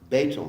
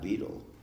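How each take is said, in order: First: The word does not sound like 'beetle'. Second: The word sounds like the insect name 'beetle'. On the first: The speaker calls it right. "it's pronounced betel" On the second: The speaker calls it wrong. "not beetle. ... beetle is a bug"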